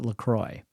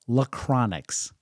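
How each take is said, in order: First: The name ends in a plain 'croy' sound. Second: The name ends in an added 'nix' sound. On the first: The speaker calls it right. "I would pronounce it LaCroix" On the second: The speaker calls it wrong. "my daughter Grace loved to pronounce it Lacronix"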